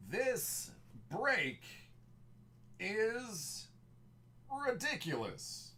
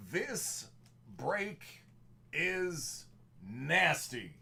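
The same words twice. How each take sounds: First: "break" drawn out and falling in a movie voice; stress on break. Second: Each word split off by pauses, pitched up in movie voice; word-by-word emphasis. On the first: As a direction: lean on break, then "is ridiculous". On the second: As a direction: hammer it out one word at a time. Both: Acted. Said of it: "projecting the movie voice".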